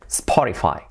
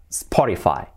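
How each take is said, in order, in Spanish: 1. Se dice con sonidos de estilo inglés. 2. Se dice con sonidos de estilo inglés.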